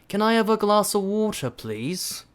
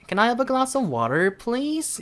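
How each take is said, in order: First: The tune starts high and falls downward. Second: The tune rises upward, especially on water. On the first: "영국식 같은 경우에는 내려서 턱을 먼저 들어서 시작을 하세요" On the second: "미국식 억양 같은 경우에는"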